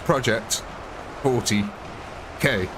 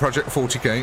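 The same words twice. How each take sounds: First: A clear gap separates forty and K. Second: Forty and K run together without a gap. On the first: The speaker calls it right. "it's Project forty K" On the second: The speaker calls it wrong. "Not Project forty K, ... We can't put the forty and the K too close together"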